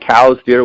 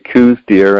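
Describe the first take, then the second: First: The first word rhymes with 'cows'. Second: The first word rhymes with 'coos'. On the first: "which is actually the correct pronunciation" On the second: "there's a bunch that say coos deer"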